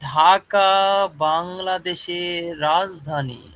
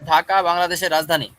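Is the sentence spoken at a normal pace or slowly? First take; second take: slow; normal. First: The sentence is spoken very slowly. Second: The sentence is spoken at a normal pace. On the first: The speaker calls it wrong. "আমি যদি এইভাবে বলি" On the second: The speaker calls it right. "এটা হলো স্বাভাবিক একটা কথা বা ডায়লগ।"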